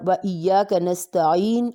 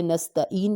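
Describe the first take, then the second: First: نستعین slowly with a true throaty ع; correct ain. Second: نستعین with a plain hamza in place of the ع; wrong hamza. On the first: Teacher showing the ع in the Fatiha, slow recitation. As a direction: say و ایاک نستعین with a real ع, not a hamza. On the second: Teacher imitating the common mistake, plain hamza. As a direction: say نستعین the careless Urdu way, hamza not ع. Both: Shown as a demonstration. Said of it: "عین کی جگہ ہم حمزہ پڑھے ہوتے ہیں".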